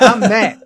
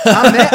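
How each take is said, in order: First: Laughing. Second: Said in the usual way. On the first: Real, not acted.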